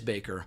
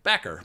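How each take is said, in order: First: The first vowel is long, as in 'bake'. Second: The first vowel is short, as in 'back'. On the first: The speaker calls it right. "it is Baker" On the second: The speaker calls it wrong. "I called him Backer for a long time"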